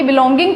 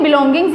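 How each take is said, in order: First: बिलोंगिंग ending on the ng; final s left off. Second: Said in the usual way. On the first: Shown as a demonstration. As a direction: say बिलोंगिंग with no s sound. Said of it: "बिलोंगिंग कुछ नहीं होता". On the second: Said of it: "बिलोंगिंग्स ही बोलेंगे".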